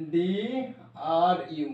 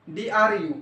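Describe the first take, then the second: First: DRU drawn out letter by letter, "D... R... U"; slow spelling. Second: Said in the usual way. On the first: Shown as a demonstration. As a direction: stretch each letter of DRU very slowly. Same letters repeated very slowly. (DRU, প্রতিটি অক্ষর টেনে টেনে ধীরে)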